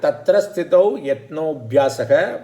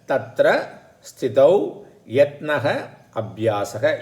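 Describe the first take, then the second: First: The last two words are fused into one. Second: The last two words are said separately. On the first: "Yatnobhyasaha is a sandhi" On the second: "You can split the sandhi"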